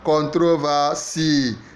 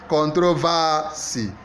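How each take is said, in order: First: The stress is on the last syllable. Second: The stress is on the third syllable. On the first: "So last syllable" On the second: "Third syllable"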